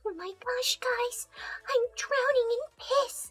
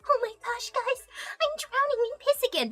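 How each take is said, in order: First: High, breathy-whispered cutesy pony voice; mock cutesy pony whimper; meme quote voice. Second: Mock little pony voice; cutesy pony voice. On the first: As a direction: squeak it out like a tiny pony in distress. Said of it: "that shit I was quoting". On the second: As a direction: squeak it like a cartoon pony. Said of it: "bring it on stream and be like".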